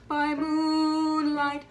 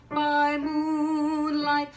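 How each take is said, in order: Both takes have the same delivery.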